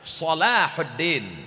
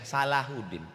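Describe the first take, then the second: First: The first vowel is a rounded 'o' sound. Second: The first vowel is an open 'a' sound. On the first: It means goodness of religion. The speaker calls it right. "Solah artinya baik, din agama" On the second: It sounds like the local word for wrong. The speaker calls it wrong. "jadi bahasa Indonesia Salahuddin. Yang benar jadi nggak benar"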